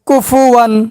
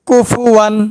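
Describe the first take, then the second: No difference in how they are said.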